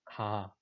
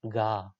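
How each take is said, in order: First: The first consonant is voiceless, without vibration. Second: The first consonant is voiced, with vibration. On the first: The speaker calls it right. "in Korean language, there's no vibration" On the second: The speaker calls it wrong. "There is a vibration uh, in Russian language"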